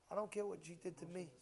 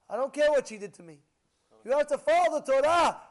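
First: Said in the usual way. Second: Loud, high, fast proclamation; preaching crescendo. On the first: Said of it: "repeated louder". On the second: Acted. Rabbi preaching respect for mother, rising loud. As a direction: build it into a thunderous declaration.

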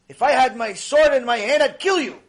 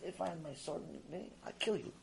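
First: Louder, higher furious threat; angry threat. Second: Much softer, muttered threat; flat quiet threat. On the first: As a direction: bark the threat at the donkey. Bilam threatens the donkey. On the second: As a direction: mumble the threat under your breath. Same threat repeated flat. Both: Acted.

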